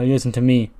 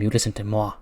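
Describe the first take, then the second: First: Said in the usual way. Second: "moi" said the French way, like mwah. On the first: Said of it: "sorry, uh". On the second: Retold or imitated. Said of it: "Moi is French".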